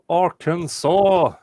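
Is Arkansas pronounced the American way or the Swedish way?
American. It is pronounced the usual American way.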